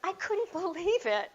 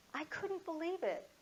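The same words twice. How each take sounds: First: High, loud burst of astonishment; loud disbelief. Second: High-pitched amazement at ordinary volume; softened disbelief. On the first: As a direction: exclaim it in utter disbelief. Her amazement after Trudy quit. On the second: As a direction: repeat the astonishment without shouting. Repeats her amazement, less loud. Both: Real, not acted.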